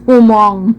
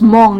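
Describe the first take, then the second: First: It is said with an extra vowel, two syllables. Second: It is said as one syllable. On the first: The speaker calls it wrong. "not Humong" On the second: The speaker calls it right. "you pronounce it as Hmong"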